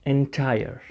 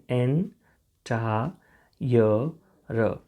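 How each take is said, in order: First: Said in the usual way. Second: એન ટા ય ર as separate slow sounds "en, ta, ya, ra"; syllable by syllable. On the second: Shown as a demonstration. Teacher shows how it will be pronounced, syllable by syllable. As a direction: break એન ટા ય ર up with pauses. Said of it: "આનો ઉચ્ચાર થશે એન".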